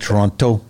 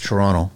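First: Both T sounds are pronounced. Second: Only one T sound is pronounced. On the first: The speaker calls it wrong. "not Toronto" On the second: The speaker calls it right. "There's no two T's in there, man. It's one T"

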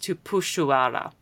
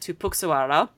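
First: The x in the middle sounds like sh. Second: The x in the middle does not sound like sh. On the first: The speaker calls it right. "it should be pronounced" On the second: The speaker calls it wrong. "my supervisor and I were saying the word"

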